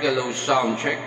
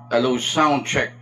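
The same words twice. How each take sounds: First: The voice has a karaoke-style echo effect. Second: The voice is dry with no effect. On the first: "yung effects na to is K T V mode" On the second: "Yan yung sound niya pag without effects"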